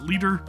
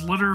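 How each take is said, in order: First: The name sounds like the word 'leader'. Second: The name sounds like the word 'litter'. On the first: The speaker calls it wrong. "some people may pronounce it Leader" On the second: The speaker calls it right. "It's Litter, from what I understand"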